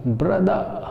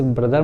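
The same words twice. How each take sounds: First: ब्रदर higher, as 'bruh-daa' with no r; silent final r. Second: Said in the usual way. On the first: Shown as a demonstration. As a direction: end ब्रदर on an open vowel, rising. (ब्रदर को 'ब्रदा' बोलें) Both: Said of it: "उसमें रा नहीं आता".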